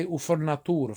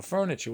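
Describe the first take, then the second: First: Italian-American "foor-na-TOO-ra"; "furniture" said as an Italian word; Italian accent. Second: Said in the usual way. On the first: Shown as a demonstration. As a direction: Italglish accent. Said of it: "saying furniture with an Italian accent". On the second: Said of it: "It's just saying furniture".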